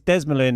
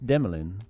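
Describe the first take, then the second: First: The S in the middle sounds like Z. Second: The S in the middle is silent. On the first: It follows an American habit. The speaker calls it wrong. "throw the the S in there as a Z" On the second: It follows the French pronunciation. The speaker calls it right. "it'd be a silent S"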